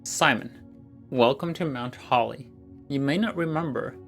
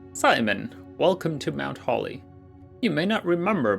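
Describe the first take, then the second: First: It is read in his natural voice. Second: It is read in a put-on character voice.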